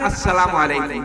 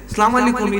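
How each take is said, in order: First: The greeting is pronounced carefully, with every sound clear. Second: The greeting is pronounced carelessly, with sounds distorted. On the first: It wishes peace and mercy upon the listener. The speaker calls it right. "সালামটা দিবেন" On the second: It wishes a curse instead of peace. The speaker calls it wrong. "এটা কিন্তু অর্থের বিপরীত হয়ে যায়, এই ধরনের দিবেন না"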